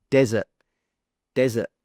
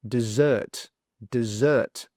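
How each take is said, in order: First: "desert" punched on DEZ, short weak ending; first-syllable stress. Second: "dessert" with weak di and strong ZERT; second-syllable stress. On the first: Teacher contrasts the first word, stress on DEZ. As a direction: hit DEZ hard in "desert". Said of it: "stress is on the first syllable". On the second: Teacher shows the stress swaps, stress on ZERT. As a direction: land on a long ZERT in "dessert". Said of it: "stress is on the second sound". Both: Shown as a demonstration.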